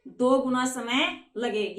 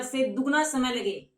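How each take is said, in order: First: दो said slow and stressed, apart from Guna; slow stressed restatement. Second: Said in the usual way. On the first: Shown as a demonstration. Teacher to pupils, slow stress on दो. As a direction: spell out दो गुना slowly.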